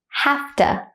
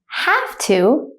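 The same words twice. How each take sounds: First: It is said quickly at natural speed. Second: It is said slowly and carefully. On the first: "then at a native speaker speed second" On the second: "I will say it slowly first"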